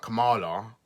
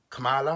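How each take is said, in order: First: Kamala with a long "ah" middle, kuh-MAH-la; rejected pronunciation. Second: Kamala tried out with a flatter middle "a"; unsure pronunciation. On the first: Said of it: "I know it's not Kamala". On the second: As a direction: say Kamala questioningly, raised, short open middle vowel. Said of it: "I don't know how to pro". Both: Shown as a demonstration.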